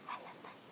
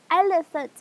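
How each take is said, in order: First: Unvoiced whisper of the word; low voice. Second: Loud, high call of the word. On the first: Teacher demonstrating high-low voice game, low whispered voice. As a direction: whisper it very softly. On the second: Teacher demonstrating high-low voice game, high and loud. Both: Shown as a demonstration. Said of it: "this is a high-low voice".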